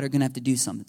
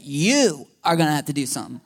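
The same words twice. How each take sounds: First: Said in the usual way. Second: "You" hit hard and held, then the rest firm; stress on You. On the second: Shown as a demonstration. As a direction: point the finger with "You". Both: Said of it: "That's how I said".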